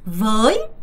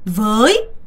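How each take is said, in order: Both takes have the same delivery.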